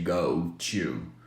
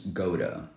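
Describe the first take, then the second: First: The word 'to' starts with a clear T. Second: The word 'to' sounds like 'ra' with a flap.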